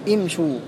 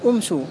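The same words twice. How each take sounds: First: The opening vowel is an unrounded i. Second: The opening vowel is a rounded u. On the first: The speaker calls it right. "كلها همزة الوصل فيها مكسورة" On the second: The speaker calls it wrong. "لا تقول امشوا"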